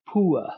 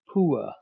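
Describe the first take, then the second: First: The vowel glides from oo toward uh. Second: The same.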